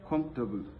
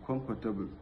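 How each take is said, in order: First: The word is said with fewer syllables. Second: The word is said with four syllables. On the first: The speaker calls it right. "it has only uh, two syllable" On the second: The speaker calls it wrong. "giving it four syllable"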